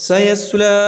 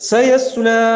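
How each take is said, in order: Both takes have the same delivery.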